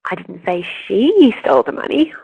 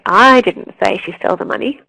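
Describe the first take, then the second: First: The stress falls on the word she. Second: The stress falls on the word I. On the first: Someone else stole it. "someone else did steal it" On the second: Someone else said it. "it means that someone else said it"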